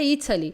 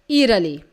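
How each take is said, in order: First: The middle consonant is a crisp T sound. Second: The middle consonant is a soft flapped sound. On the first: "Eu falaria Italy" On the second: "não pronuncia esse T"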